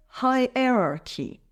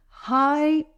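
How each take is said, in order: First: Said in the usual way. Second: "Hierarchy" in separate, spaced syllables; broken into syllables. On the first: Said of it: "It's pronounced as". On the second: Shown as a demonstration. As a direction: pause between all the syllables of "Hierarchy". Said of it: "Let's break it down".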